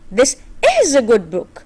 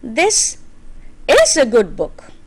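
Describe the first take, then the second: First: The stress falls on the word "is". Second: The stress falls on the word "this". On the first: It confirms that the book really is good. "Is a good book, I'm trying to confirm" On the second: This one, not another, is a good book. "I'm putting a stress on this"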